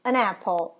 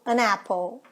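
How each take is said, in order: No difference in how they are said.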